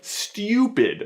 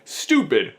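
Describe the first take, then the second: First: The u is said with a y glide, 'styoo'. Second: The u is said without a y glide, 'stoo'. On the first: The speaker calls it right. "is actually pronounced stupid" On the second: The speaker calls it wrong. "people ironically mispronounce it as stupid"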